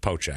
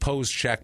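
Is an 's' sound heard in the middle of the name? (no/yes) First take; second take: no; yes. First: The name is said without an 's' sound. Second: The name is said with an 's' sound. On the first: The speaker calls it right. "it's Pocek" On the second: The speaker calls it wrong. "it looks like Pose Check"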